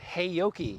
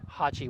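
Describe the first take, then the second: First: The name is said with three syllables, 'Heyoki'. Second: The name is said with two syllables, 'Hachi'. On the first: The speaker calls it wrong. "A lot of people mispronounce that and they call it Heyoki, but that would be incorrect" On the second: The speaker calls it right. "they assured us Hachi was the, pr- the correct pronunciation"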